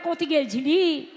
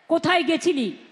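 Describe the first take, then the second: First: It is said in a Birbhum accent. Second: It is said in a Kolkata accent.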